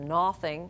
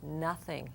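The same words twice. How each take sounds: First: The first vowel sounds like a long 'oh'. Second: The first vowel sounds like a short 'uh'. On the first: The speaker calls it wrong. "it's not no-thing" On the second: The speaker calls it right. "it's nothing. Uh. So it sounds like the short U sound"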